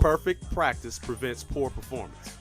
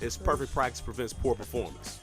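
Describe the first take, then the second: First: It is said slowly. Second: It is said at normal speed.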